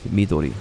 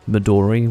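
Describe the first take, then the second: First: The word is said with a Japanese-style pronunciation. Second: The word is said with an English-style pronunciation. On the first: "I happen to understand Japanese pronunciation, so I can't say that" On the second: "everyone says Midori, right?"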